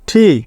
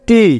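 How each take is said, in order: First: The T is said with a puff of air. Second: The T is said without a puff of air. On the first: The speaker calls it right. "তো কি হবে ঠি" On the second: The speaker calls it wrong. "আমরা বলি এটা কি টি"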